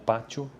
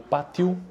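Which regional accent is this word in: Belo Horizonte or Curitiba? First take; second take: Belo Horizonte; Curitiba. First: It is said in the Belo Horizonte accent. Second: It is said in the Curitiba accent. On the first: "num outro dialeto, no caso lá de Belo Horizonte" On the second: "como eu me expresso aqui na região de Curitiba"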